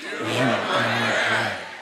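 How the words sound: It is said with firm, believing conviction.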